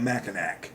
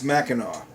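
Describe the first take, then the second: First: The word ends with an 'ack' sound. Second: The word ends with an 'aw' sound. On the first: The speaker calls it wrong. "not Mackinac" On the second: The speaker calls it right. "it's Mackinac"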